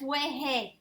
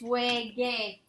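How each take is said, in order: First: The consonant before the final vowel is an h sound. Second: The consonant before the final vowel is a hard g. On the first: The speaker calls it wrong. "How do you pronounce that word? That's wehe" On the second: The speaker calls it right. "you want to maintain the original sound. It's wege"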